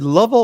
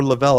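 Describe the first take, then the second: First: "Lovell" stressed on the first syllable. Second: "Lavelle" stressed on the second syllable. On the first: Host checking a viewer's name, stressing the first syllable of "Lovell". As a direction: hit the start of "Lovell", loud. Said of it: "is the emphasis on the first syllable". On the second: Host checking a viewer's name, stressing the second syllable of "Lavelle". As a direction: hit the end of "Lavelle", loud. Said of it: "or the second". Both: Shown as a demonstration.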